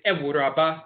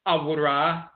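First: "Ewuraba" with eh first, eh-WOO-drah-bah; Fanti pronunciation. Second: "Awura" with ah first, ah-WOO-drah; Asante pronunciation. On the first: Lecturer giving the Fanti form, "Ewuraba" as eh-WOO-drah-bah. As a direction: start "Ewuraba" on eh, add bah. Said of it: "the Fanti say". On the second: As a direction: open "Awura" on ah. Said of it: "You say for a woman". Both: Shown as a demonstration.

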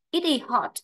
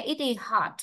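First: "hot" with the short British O; familiar short O. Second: "hot" opened up to "haht"; American long A. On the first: Teacher quoting what students usually hear, "hot" with short O. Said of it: "nhiều bạn cứ nghe quen là hot". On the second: Teacher showing what students fail to catch, "hot" with long ah. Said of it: "không nghe nổi ra được từ đó". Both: Shown as a demonstration.

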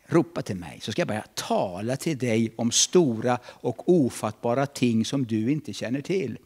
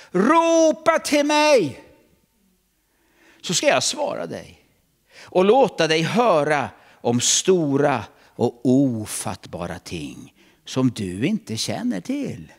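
First: Said in the usual way. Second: High, loud, slow proclamation; booming voice of God. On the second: Acted. Preacher booming God's promise to the church, loud and slow. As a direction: thunder God's promise out over the hall.

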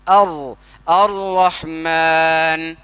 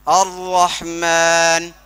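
First: अर्रहमान stretched slowly, the wrong way; wrong recitation. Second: अर्रहमान recited slowly, with the rr held firmly; correct recitation. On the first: Teacher shows the wrong way to recite. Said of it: "अगर हम ये ऐसा बोलते". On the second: Teacher contrasts the correct recitation with the wrong one. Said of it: "तो सही नहीं है". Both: Shown as a demonstration.

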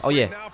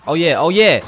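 First: Said in the usual way. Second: Higher, louder hype; excited cheer. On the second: Real, not acted. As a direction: cheer the made shot. Builds celebration over repeats.

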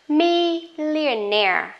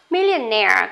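First: Millionaire said slowly, syllable by syllable, stress on -naire; slow model word. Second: Millionaire at normal speed, stress on -naire; normal speed word. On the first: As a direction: stretch out Millionaire like a teacher. (đọc chậm, rõ từng âm tiết Millionaire) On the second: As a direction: say Millionaire at natural pace. (đọc Millionaire tốc độ bình thường) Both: Shown as a demonstration. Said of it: "Million có nghĩa là hàng".

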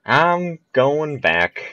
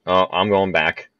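First: Slow high drawn-out whine on going back; drawn-out wail. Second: Said in the usual way. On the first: Real, not acted. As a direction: stretch it, higher, in dismay. Ball rolls back.

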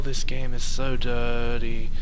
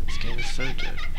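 First: Said in the usual way. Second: Laughing squeal. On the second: Real, not acted. Repeats line laughing, high voice.

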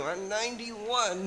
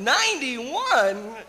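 First: Slow, lightly voiced old man; old puppet character. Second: Loud, high, slow question on "Ninety-one"; astonished echo. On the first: Puppet telling the interviewer his age, old-man voice. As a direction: draw the age out like an elderly puppet. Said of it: "You're very old". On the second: Acted. Interviewer amazed at old puppet's age, loud astonishment. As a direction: stretch "Ninety-one" upward in disbelief.

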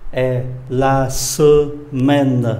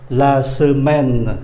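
First: E, la semaine stretched out, the è sound isolated first; very slow model pronunciation. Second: La semaine said very slowly and clearly; slow model pronunciation. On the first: Teacher isolates the vowel, then models la semaine. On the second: Teacher models la semaine slowly for the class. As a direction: draw out la semaine for students to copy. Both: Shown as a demonstration.

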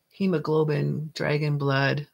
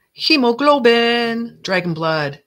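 First: Said in the usual way. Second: Loud, drawn-out potion proclamation; grand announcement. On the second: Pretend. Potion maker unveiling her bottle's name, grand announcement. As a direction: start high and loud, stretching HEMOGLOBIN, then drop in pitch.

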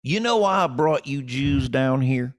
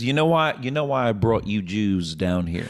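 First: Slow Southern drawl, a notch up; Kentucky booker. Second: Kentucky booker. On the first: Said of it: "and he goes". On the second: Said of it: "So he says". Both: Retold or imitated.

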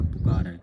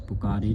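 First: ਪੁਕਾਰੈ with an open "ae" ending; correct vowel. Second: ਪੁਕਾਰੇ with a closed "ay" ending; wrong vowel. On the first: Teacher corrects the reading, ਪੁਕਾਰੈ with open ai. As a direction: widen the end of ਪੁਕਾਰੈ to ai. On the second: Teacher shows the misreading, ਪੁਕਾਰੇ with closed e. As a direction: end ਪੁਕਾਰੇ on a narrow e. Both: Shown as a demonstration. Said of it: "ਪੁਕਾਰੇ ਨਹੀਂ ਪੜ੍ਹਨਾ".

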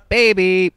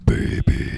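First: High, loud call of the name; excited name call. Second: Breathy, distorted killer whisper. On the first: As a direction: sing out the name with hype. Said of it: "I usually go". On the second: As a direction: whisper it like a horror movie killer. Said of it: "the Baby voice in my killer voice". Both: Shown as a demonstration.

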